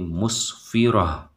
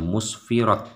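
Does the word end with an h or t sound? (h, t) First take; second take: h; t. First: The word ends with a soft h sound. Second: The word ends with a t sound. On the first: The speaker calls it right. "dia dibaca dengan suara ha" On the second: The speaker calls it wrong. "Jadi bukan musfirat, tidak"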